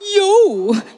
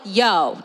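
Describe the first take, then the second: First: It is said in a prim, buttoned-up way. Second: It is said in a casual, cool way. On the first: The speaker calls it right. "the more um, buttoned up cousin of yo" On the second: The speaker calls it wrong. "Not like yo, not like that"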